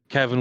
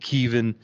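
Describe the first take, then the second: First: The first vowel is a short E sound. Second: The first vowel is a long E sound.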